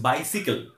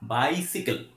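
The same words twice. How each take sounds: First: The second syllable sounds like 'sih'. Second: The same.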